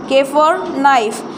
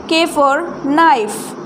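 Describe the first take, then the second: Both takes have the same delivery.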